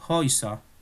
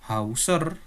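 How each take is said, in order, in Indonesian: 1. Vokal pertama berbunyi seperti 'oy'. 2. Vokal pertama berbunyi seperti 'ow'. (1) "tetapi Häuser; cara pelafalannya sama dengan eu" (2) "bukan Hauser"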